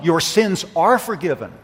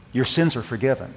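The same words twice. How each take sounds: First: Your sins are forgiven, with are lifted and pressed; stress on are. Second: Your sins are forgiven, with sins leaned on; stress on sins. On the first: Preacher trying a second reading, stress on are. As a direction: lean on are, not sins. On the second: Preacher weighing the words, stress on sins. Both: Shown as a demonstration. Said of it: "Or maybe the emphasis is on".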